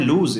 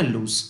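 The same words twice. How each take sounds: First: लूज ending in a buzzing z, like lose; lose with a z sound. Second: लूज ending in a hissed s, like loose; loose with an s sound. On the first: Teacher contrasting words, says लूज with a z. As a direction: say लूज as the verb, final sound z. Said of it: "last में जेड का sound आता है". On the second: Teacher contrasting words, says लूज with an s. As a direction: say लूज as the adjective, final sound s. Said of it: "इसमें एस का sound आता है". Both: Shown as a demonstration.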